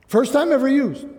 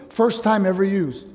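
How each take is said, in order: First: "First time ever used." repeated higher, with the weight on "time"; emphatic repeat. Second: Said in the usual way. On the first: Shown as a demonstration. Preacher repeating the point to the congregation, emphatic.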